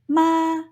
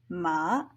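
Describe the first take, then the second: First: It is said with the first tone. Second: It is said with the third tone. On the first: It means mother. "Using the first tone in Mandarin will result in the meaning for mother" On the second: It means horse. "third one, horse"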